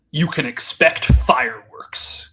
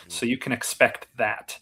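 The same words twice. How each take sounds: First: Slow, loud wrestling promo opener; mock wrestling promo, drawn out and punched. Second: Said in the usual way. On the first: Co-host setting up a joke about what fans can expect, mock wrestling promo. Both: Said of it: "wrestling promo voice here".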